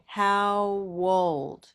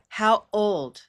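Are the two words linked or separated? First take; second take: linked; separated. First: The two words run together without a break. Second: The two words are said with a break between. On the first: The speaker calls it right. "He's using a kind of connected speech strategy by saying" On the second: The speaker calls it wrong. "Instead of"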